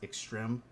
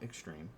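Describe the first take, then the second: First: The word is said with a French-like vowel. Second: The word is said as plain English 'extreme'. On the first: The speaker calls it right. "it's pronounced extreme" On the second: The speaker calls it wrong. "not extreme"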